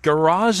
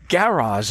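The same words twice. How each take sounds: First: The stress is on the second syllable. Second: The stress is on the first syllable. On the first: "what we say with this emphasis on the latter syllable" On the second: "what I've heard a lot of Brits say"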